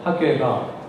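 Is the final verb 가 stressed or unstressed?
unstressed. The final verb carries no special stress. "가라는 동사의 그뭐 액센트 내지는 강세가 부과되지 않는데"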